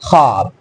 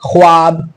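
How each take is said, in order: First: The w sound after kh is silent. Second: The w sound after kh is pronounced. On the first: The speaker calls it right. "लेकिन इसे पढ़ते हैं हम" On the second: The speaker calls it wrong. "मैं इसको पढ़ तो सकता हूँ"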